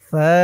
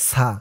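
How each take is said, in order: First: It starts with the tongue tip on the teeth. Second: It starts with a hissing s sound. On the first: The speaker calls it right. "বলতে হবে ফা। ... জিহ্বার মাথা উপরের দাঁতের মাথার সাথে লাগবে" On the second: The speaker calls it wrong. "এটাকে অনেকে বলে সা, সা বললে কিন্তু তার উচ্চারণটা শুদ্ধ হয় না"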